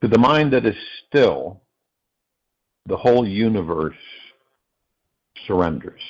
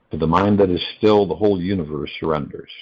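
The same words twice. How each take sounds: First: Long pauses after "still" and "universe"; phrase-by-phrase pauses. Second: Said in the usual way. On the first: Real, not acted. Speaker opens meditation call with a quote, phrase by phrase with pauses. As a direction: set "surrenders" apart after a long pause.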